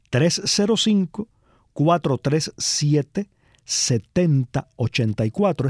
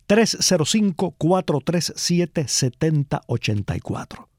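First: The number is said slowly. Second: The number is said at normal speed.

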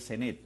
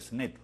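First: The name is pronounced with Spanish sounds. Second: The name is pronounced with English sounds.

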